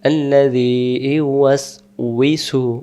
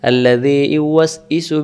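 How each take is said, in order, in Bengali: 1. ধ্বনিটি প্রথমে গোল ঠোঁট সহ 'wi'। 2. ধ্বনিটি গোলাকার ঠোঁট ছাড়া সাধারণ 'i'। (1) "সেখানে ওয়াউজের উই আছে" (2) "আমরা বলি বলে ফেলি"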